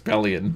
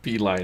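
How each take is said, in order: First: The name is said as one word, pelion. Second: The name is said as two parts, pee-line. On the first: The speaker calls it right. "it's Pelion" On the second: The speaker calls it wrong. "It's not P line"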